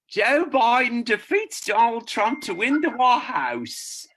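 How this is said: It is read in a put-on character voice.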